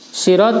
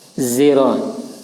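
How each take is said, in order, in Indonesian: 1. Awalnya berbunyi s yang berat dan emfatik. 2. Awalnya berbunyi bunyi di antara s dan z. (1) "Sirat dibaca dengan shad" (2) "antara shad dan zai"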